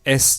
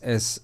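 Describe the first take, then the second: First: The s sound is bright with strong hiss. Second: The s sound is softer with reduced hiss. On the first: "एस का pronunciation कितना high हो चला है" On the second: "अब कम हो गया"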